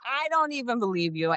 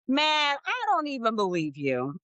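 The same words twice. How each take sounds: First: Said in the usual way. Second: Disbelief. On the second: Real, not acted.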